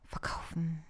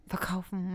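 First: Breathy whispered word. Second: Said in the usual way. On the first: Shown as a demonstration. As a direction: whisper it under your breath. Says the word twice, first whispered. (geflüstert)

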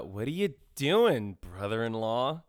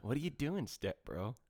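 First: Slow, drawn-out sultry tease; mock step-bro quote. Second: Hushed, teasing step bro line; softer meme quote. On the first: To his cohost, mocking the movie romance as a slow, hammy tease. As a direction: drag out brother-in-law like a cheesy film line. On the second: Pretend. Explaining the joke to his cohost, a quiet teasing meme voice. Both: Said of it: "Do you get what I just quoted?".

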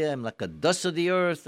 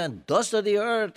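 First: Said in the usual way. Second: Tearful. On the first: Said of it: "we say". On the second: Retold or imitated. Worshipper crying out his lowliness in prayer, tearful. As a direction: voice pushed higher and louder with a hint of weeping. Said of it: "and he was crying".

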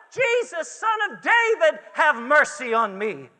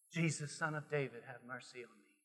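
First: High, loud shout for mercy; crying out. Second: Low, very soft cry from the depths; hushed plea. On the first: Preacher as blind Bartimaeus calling to Jesus, crying out. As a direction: call out urgently, the pitch falling at the end. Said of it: "He cried out with a shout". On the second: Preacher as blind man calling from his soul, hushed plea. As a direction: let it sink almost to nothing. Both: Acted.

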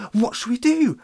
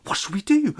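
First: High, louder question falling at the end; fretful villagers. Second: High, rising panicked question; fretful villagers. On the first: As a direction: plead it again, dropping on do. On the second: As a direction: fret helplessly, voice going up. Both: Acted. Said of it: "they exclaimed".

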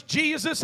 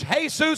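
First: Said in the usual way. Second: "Jesus" said the Spanish way, hay-SOOS; Spanish pronunciation. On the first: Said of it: "in English". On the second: Shown as a demonstration. Pastor showing the Spanish way to say the name, hay-SOOS. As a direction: say "Jesus" as a Spanish speaker would, with an h sound and stress on the end. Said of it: "if you say it in Spanish".

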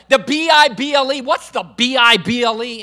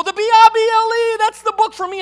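First: Loud scornful parroting, spoken letter by letter; imitated mocking. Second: Loud, high sung mimicry with a long held note; sung, belt it out like an over-the-top radio preacher; imitated radio preacher singing. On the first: Unsaved golf pro parroting the radio preacher, mocking. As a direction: throw it back as a jeering echo. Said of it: "I would begin to mock God, laugh at God". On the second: Golf pro mimicking a preacher on the radio, hammed-up singing. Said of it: "He would go".

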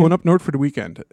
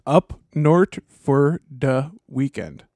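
First: Fast Minnesota "Going up north for the weekend"; Minnesota accent. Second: Slow, drawn-out Minnesota "up north for the weekend"; Minnesota accent. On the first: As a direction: rattle it off quickly, Minnesotan. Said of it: "just say it fast". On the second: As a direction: drawl the Minnesota vowels in "north". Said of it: "a basic Minnesota accent". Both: Shown as a demonstration.

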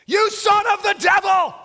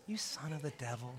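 First: Much higher, much louder furious cry; shouted rebuke. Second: Much softer, hushed reading; mock whisper. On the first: Acted. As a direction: bellow it at the sorcerer. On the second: Shown as a demonstration. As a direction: say it under your breath as a joke. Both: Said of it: "you can't read that with a whisper".

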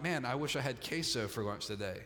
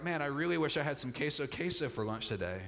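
First: Low, mild hankering for queso; casual wish. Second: A stronger hankering, quickly said; keener wish. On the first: Preacher acting someone who sort of wants lunch, casual wish. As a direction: wish for it offhandedly, pitched low. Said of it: "if you sort of wanted queso". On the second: Preacher acting someone who really wants lunch, keener wish. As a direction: wish for it more keenly, falling away at the end. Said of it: "if you really wanted it". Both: Acted.

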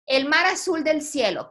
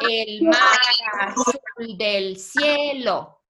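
First: Said in the usual way. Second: "El mar azul del cielo" slowly, stretched syllable by syllable. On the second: Shown as a demonstration. Teacher showing students how many syllables, syllable by syllable. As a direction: measure out each syllable for counting. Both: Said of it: "¿Cuántas sílabas aquí?".

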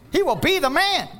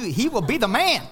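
First: "He will be the man" pitched much higher and louder; emphatic repeat. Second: Said in the usual way. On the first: Real, not acted. Preacher promising wives a perfect husband, ringing emphatic repeat. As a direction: hammer "He will be the man" home the second time.

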